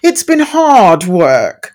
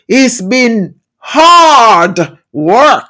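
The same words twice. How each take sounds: First: It is said in a very English accent. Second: It is said in the speaker's heritage accent. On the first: "I say that in a very English tone" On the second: "if I go back into my roots"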